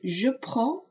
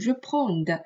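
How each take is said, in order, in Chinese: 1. prends 结尾的 d 不发音。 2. 结尾能听到一个 d 音。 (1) "千万不要把这个的发出来啊" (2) "不要读成je prends"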